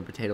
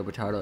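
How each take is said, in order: First: "potato," with a long A, po-TAY-to. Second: "potato." with a broad A, po-TAH-to. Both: Shown as a demonstration. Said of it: "Everyone says the same words a little bit differently".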